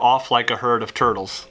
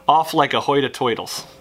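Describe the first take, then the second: First: It is said in the speaker's ordinary accent. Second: It is said in a put-on regional accent.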